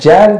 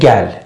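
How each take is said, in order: First: The word begins with a j sound. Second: The word begins with a g sound. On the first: This is the Azeri way of saying it. "آذری ها میگن جل" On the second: This is how other Turkic speakers say it. "ترک ها میگن گل"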